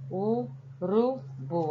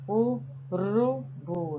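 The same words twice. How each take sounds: First: Urubu, very slow, r tapped again. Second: Urubu, very slow, with a light flapped r; tapped R. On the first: Teacher repeating the word slowly for the class. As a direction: say Urubu once more, slow, light r. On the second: Teacher stretching the word so pupils hear the R. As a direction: draw out Urubu, tap the r. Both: Shown as a demonstration. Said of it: "Olha só o som como saiu".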